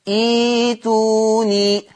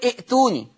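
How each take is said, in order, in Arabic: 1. تحل ياء المد محل الهمزة. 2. تأتي همزة بعد الحركة الأولى. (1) "تبدل إيه ياء؟ فتصير إيتوني" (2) "بعضنا بيلحن فيها ويقول ائتوني"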